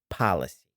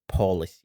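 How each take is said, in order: First: The first syllable has an 'ah'-like vowel, 'pa'. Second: The first syllable has an 'oh'-like vowel, 'po'. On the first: The speaker calls it right. "It's pa" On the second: The speaker calls it wrong. "it's not pronounced as policy"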